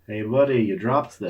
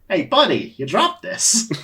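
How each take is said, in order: First: It is read in a plain reading voice. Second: It is read in a put-on character voice.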